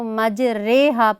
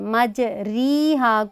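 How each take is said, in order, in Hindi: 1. र के बाद का स्वर 'ay' जैसा लगता है। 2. र के बाद का स्वर लंबी 'ee' जैसा लगता है। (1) "मजहूल अंदाज में पढ़ा जाएगा" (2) "री नहीं पढ़ेंगे, मारूफ तरीके से नहीं"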